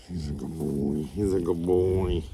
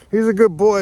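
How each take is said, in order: First: Low, soft cooing to the dog; soft dog praise. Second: Higher and louder cheery praise; bright dog praise. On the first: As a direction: murmur praise to a good dog. Praising guardian dog Spike softly. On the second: Praising Spike, then the joke. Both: Real, not acted.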